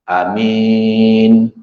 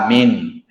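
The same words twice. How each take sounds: First: The first vowel is long and the m single. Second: The first vowel is short and the m single. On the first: "Tadi panjang a ni amin" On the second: "dipendekkan a dan mimnya itu tidak bertasydid"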